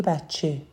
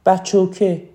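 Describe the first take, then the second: First: Said in the usual way. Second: "بچوکه" with a Shirazi -oke ending; Shirazi accent. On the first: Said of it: "روی لهجهش کار کنه". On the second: Shown as a demonstration. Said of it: "به عنوان مثال یه شیرازی".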